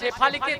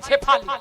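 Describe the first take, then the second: First: The name begins with a 'sh' sound. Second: The name begins with a 'ch' sound. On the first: The name said normally. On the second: The speaker has eaten too much to speak clearly.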